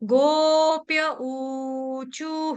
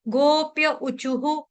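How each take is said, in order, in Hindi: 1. uchuh का पहला स्वर दीर्घ है। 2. uchuh का पहला स्वर ह्रस्व है। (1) "ऊ यहाँ पे दीर्घ है" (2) "ऐसे नहीं पड़ेगा कोई भी"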